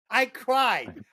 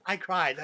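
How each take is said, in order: First: "I cried" insisted on, pitched higher; emphatic admission. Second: Sincere admission. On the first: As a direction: defend it: "I cried". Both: Real, not acted. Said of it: "This is a true statement".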